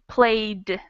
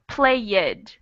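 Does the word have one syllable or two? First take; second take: one; two. First: The ending is a plain d, one syllable. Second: The ending adds an extra syllable, two syllables. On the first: The speaker calls it right. "you're going to pronounce it just like a D" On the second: The speaker calls it wrong. "They add an extra syllable"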